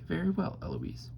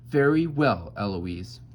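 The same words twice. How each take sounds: First: High echo falling away on the name; Eloise mimicking. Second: Loud, raised stern declaration; tutore Philip. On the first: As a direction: copy the tutor, lighter and higher. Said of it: "I stand up and say". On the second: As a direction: tutor announcing they've had enough. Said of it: "he stands up and says". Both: A narrator's reading.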